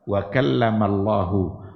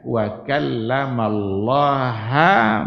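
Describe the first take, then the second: First: The final vowel of Allah is u. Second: The final vowel of Allah is a. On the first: God spoke to Moses. The speaker calls it right. "Kalau baca Allahu berarti fa'il" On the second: Moses spoke to God. The speaker calls it wrong. "dibacanya wa kallamallaha Musa"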